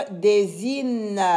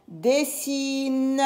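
First: "désine" said with a buzzed /z/ in the middle; Z sound in "désine". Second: "Dessine" drawn out with a voiceless /s/ in the middle; S sound in "Dessine". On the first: Teacher removes one S, "désine" pronounced with /z/. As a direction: misread "désine" with a zzz for the single S. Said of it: "Si j'enlève un S". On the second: Teacher shows double S, "Dessine" drawn out with /s/. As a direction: stretch "Dessine", keeping a clear sss. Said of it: "deux S pour lire S". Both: Shown as a demonstration.

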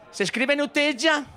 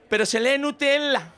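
First: Higher, pedantic "Nutella" with Spanish ll as y; spelling pronunciation. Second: Higher, pedantic "Nutella" with an l sound; reading pronunciation. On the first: Daughter correcting father, pedantic "Nutella" as spelt. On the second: Daughter correcting father, pedantic "Nutella" as it is read. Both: Retold or imitated.

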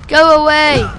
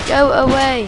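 First: A sharp panicked go away; loud yell. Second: Said in the usual way. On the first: Real, not acted. Player yelling at game enemy, loud panicked shout. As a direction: shout it to drive him off.

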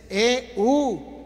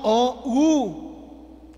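First: E U slow, two stretched vowels; correct diphthong. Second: O U very slow, two stretched vowels; contrasted diphthong. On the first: Teacher giving the right diphthong, E U slowly stretched. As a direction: draw out E, then U, as the right answer. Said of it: "No O U". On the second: Teacher ruling out the wrong diphthong, O U slowly stretched. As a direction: draw out O, then U, emphatically. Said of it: "es E U". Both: Shown as a demonstration.

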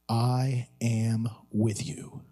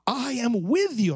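First: Slow, low and tender; solemn reassurance. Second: "with" pitched up high, then falling; emphatic reassurance. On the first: Preacher gives four simple words, solemnly reassuring. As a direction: lay out each word slowly in a low voice. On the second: To despairing parents, emphatic stress on "with". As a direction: hit "with" with a high, emphatic rise and fall. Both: Real, not acted.

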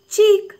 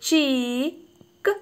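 First: "ചീക്ക്" in one piece, high and loud; whole word. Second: "ചീക്ക്" stretched on a long "ee", final k released apart; drawn-out blending. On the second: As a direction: blend "ചീക്ക്" very slowly, holding the vowel. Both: Shown as a demonstration. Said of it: "അപ്പോൾ ഇവിടെ".

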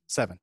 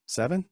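First: Falling, settled "Seven."; "Seven." final, falling; decided seven. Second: Rising, unsure question on "seven?"; "seven?" tentative, rising. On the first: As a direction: land "Seven." firmly downward. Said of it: "We'll say seven". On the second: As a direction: say "seven?" as a doubtful guess with a lift at the end. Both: Real, not acted.

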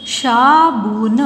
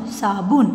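First: साबुन very slow, each sound held; syllable by syllable. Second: Said in the usual way. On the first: Shown as a demonstration. (साबुन को तोड़-तोड़ कर, धीरे) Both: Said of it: "properly बोलना है".

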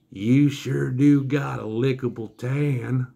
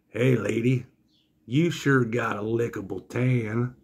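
First: Very slow, stretched-out leering drawl; sleazy flirt, exaggerated. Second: Slow, drawn-out creepy come-on; sleazy flirt. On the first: Willie repeating come-on about the wife, extra slow mock drawl. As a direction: imitate the creep repeating it, dragging every word. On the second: Retold or imitated. Three Tooth Willie hitting on wife, slow mock come-on. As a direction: imitate a leering carny, taking it slowly.

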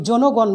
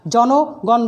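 First: জনগণ with rounded o, "jo-nogawn"; wrong closed o. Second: জনগণ with open ɔ, "jaw-nogawn"; open vowel in জনগণ. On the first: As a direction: say জনগণ with first vowel closed to o. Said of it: "জনগণ বলি না". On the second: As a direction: say জনগণ with first vowel wide. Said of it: "জনগণ বলি". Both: Shown as a demonstration.

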